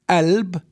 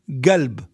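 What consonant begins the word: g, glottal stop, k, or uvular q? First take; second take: glottal stop; g. First: The word begins with a glottal stop sound. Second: The word begins with a hard g sound. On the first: "In some areas, it's pronounced as alb" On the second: "And some area g"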